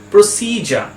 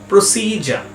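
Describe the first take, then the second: First: The middle has a 'j' sound before the ending. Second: The same.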